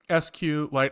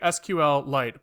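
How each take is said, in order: First: Only S and Q are spelled out. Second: The letters S, Q and L are spelled out. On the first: "but it's S Q Lite" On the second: "I say S Q L Lite"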